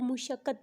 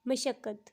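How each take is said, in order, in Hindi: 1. पहला स्वर 'u' है, जैसे mushaqqat में। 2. पहला स्वर 'a' है, जैसे mashaqqat में। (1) "अपनी अपनी डेली लाइफ में आप जो बोलते हैं ... जबकि ये गलत है" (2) "असल में इसकी अदायगी ऐसे होगी"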